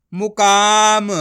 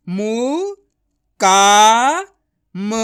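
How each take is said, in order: First: मुकाम joined, with a long loud का; blended word. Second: मु, का, म separated, with a long loud का; syllable by syllable. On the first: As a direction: blend it into one drawn-out मुकाम. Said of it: "तो मिलके बन जाएगा". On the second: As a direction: sound out मु... का... म. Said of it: "डायरेक्ट मात्रा का उच्चारण करके पढ़ेंगे". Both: Shown as a demonstration.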